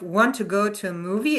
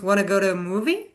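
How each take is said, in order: First: Both words are said fully and separately. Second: The words blend into one reduced word. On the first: "instead of" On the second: "it becomes"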